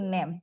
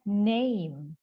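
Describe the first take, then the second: First: The vowel is a short plain e sound. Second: The vowel glides from e toward i. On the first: The speaker calls it wrong. "Jadi jangan disebut name. Kalau name itu no nomor Eptanas murni" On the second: The speaker calls it right. "Tapi ini dibacanya name"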